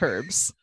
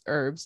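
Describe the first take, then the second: First: It is said with a British pronunciation. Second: It is said with an American pronunciation. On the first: "if you're British, it's herbs" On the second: "If you're American, it's herbs"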